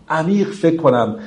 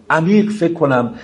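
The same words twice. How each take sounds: The two takes are said the same way.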